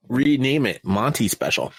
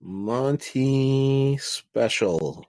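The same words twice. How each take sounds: First: Said in the usual way. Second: Slow, announced name; drawn-out announcer voice. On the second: Pretend. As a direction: stretch out Monty Special slowly like an announcer.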